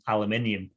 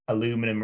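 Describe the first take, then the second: First: The word is said the British way. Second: The word is said the American way.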